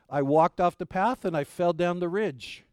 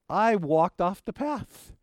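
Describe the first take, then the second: First: Said in the usual way. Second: Slow, drawn-out reveal of "I walked off the path"; slow dramatic reveal. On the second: Retold or imitated. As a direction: let "I walked off the path" land slowly, building suspense.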